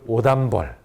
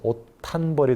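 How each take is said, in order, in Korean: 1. 가운데 음절은 예사소리로 시작해요. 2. 가운데 음절은 거센소리로 시작해요. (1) "사투리 발음을 하지 않도록" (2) "티읕으로 바뀌죠"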